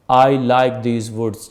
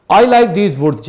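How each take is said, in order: First: Said in the usual way. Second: Louder, higher, hearty exclamation; father voiced with open-hearted delight; father's delight. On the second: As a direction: let the father savour the woods, slowly. Teacher rereads father's line.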